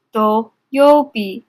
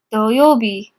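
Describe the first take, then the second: First: Very slow syllable-by-syllable. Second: Said in the usual way. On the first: Shown as a demonstration. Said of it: "teacher stretches reading slowly". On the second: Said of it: "teacher models kanji reading".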